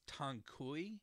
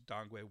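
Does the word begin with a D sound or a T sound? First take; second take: T; D. First: The word begins with a T sound. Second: The word begins with a D sound. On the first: The speaker calls it wrong. "some people will pronounce as Tangkui, but that's not correct" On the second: The speaker calls it right. "The actual pronunciation is Dangui"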